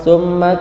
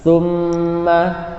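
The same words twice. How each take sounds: First: The double m is rushed without a nasal hum. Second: The double m is held with a nasal hum. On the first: The speaker calls it wrong. "tergesa-gesalah terkadang membaca huruf gunah ini terlalu cepat" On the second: The speaker calls it right. "suaranya didengungkan"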